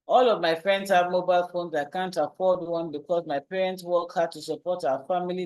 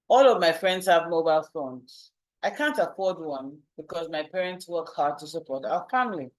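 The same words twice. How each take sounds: First: It is run together without pauses. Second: It pauses at the punctuation between sentences.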